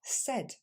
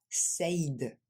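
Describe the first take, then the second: First: Said dit comme s'écrivant S A D, sèd; said court en sèd; bonne prononciation. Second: Said dit en saïd, diphtongué; mauvaise prononciation. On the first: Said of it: "mais tout simplement". (said bien prononcé) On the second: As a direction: imiter la faute, saïd. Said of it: "Ce n'est pas said". (said mal prononcé) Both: Shown as a demonstration.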